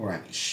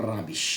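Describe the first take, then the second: Both takes have the same delivery.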